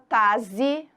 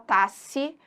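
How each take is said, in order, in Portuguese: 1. Um som de z vem antes da última vogal. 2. Um som de s vem antes da última vogal. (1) "ninguém fala taze" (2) "ninguém fala tasse"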